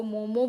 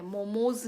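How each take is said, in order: First: मोमो ending on a vowel, loud; correct form without S. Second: मोमोज with a buzzing s on the end; wrong form with S. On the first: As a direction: say मोमो firmly with no final s. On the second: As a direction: add a final s sound to मोमोज. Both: Shown as a demonstration. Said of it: "एस नहीं लगता".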